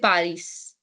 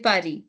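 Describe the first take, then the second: First: The final S sound is pronounced. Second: The final S sound is silent. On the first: The speaker calls it wrong. "You don't say Paris" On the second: The speaker calls it right. "and S is silent. ... you say Paris"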